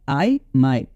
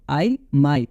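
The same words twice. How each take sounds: The two takes are said the same way.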